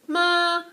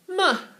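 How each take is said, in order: First: It is said with Mandarin's first tone. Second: It is said with Mandarin's fourth tone. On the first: "First intonation, it's a straight tone, sustaining straight tone" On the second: "you need it to do the fourth"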